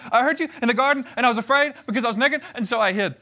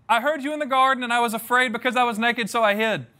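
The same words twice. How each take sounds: First: Put-on fast, high blurted confession like a scared kid; a little boy rushing out the bad news to his parents; scared four-year-old, rushed. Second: Said in the usual way. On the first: Shown as a demonstration. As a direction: blurt it all out at once like a caught child. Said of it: "four-year-old giving bad news very, very quickly". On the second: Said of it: "I definitely read it as".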